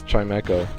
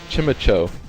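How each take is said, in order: First: The first syllable sounds like the word 'chime'. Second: The first syllable does not sound like 'chime'. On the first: The speaker calls it right. "he's like a little wind chime" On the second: The speaker calls it wrong. "That was another one whose name I was always saying wrong"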